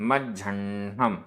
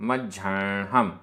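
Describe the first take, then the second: Both takes have the same delivery.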